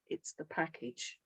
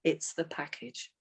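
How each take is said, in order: First: It's the package, softly stressed; emphasis on package. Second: It's the package, said quietly with a rise; emphasis on package. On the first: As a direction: lean on "the package", quietly. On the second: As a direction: stress "the package" with a lift at the end. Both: Shown as a demonstration. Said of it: "that's what you emphasize to them".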